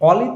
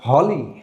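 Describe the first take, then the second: First: The word begins with a vowel sound. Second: The word begins with an h sound. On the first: The speaker calls it wrong. "অলি তো না" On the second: The speaker calls it right.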